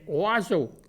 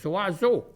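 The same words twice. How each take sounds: First: The word starts with a vowel sound. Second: The word starts with a z sound. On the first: It is the standard form. The speaker calls it right. "mais c'est oiseau" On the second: It is the local, mispronounced form. The speaker calls it wrong. "nous autres, on disait tout le temps oiseau"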